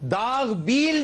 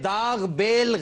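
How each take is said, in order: First: The second word has a long ee vowel. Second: The second word has a short e vowel. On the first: The speaker calls it right. "है दाग बील डालना" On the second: The speaker calls it wrong. "ये दाग बेल गलत है"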